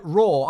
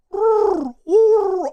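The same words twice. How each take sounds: First: Said in the usual way. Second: Loud, high owl-like howl; high, mournful wordless hooting; failed Chewbacca roar. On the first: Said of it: "like, a Chewbacca". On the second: Shown as a demonstration. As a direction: attempt a Chewbacca roar that comes out as a sad owl hoot. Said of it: "I just sound like a freaking owl".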